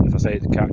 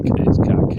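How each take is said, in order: First: Said in the usual way. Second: Cack said louder, punched hard; stress on cack. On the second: Real, not acted. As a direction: hit the word cack firmly.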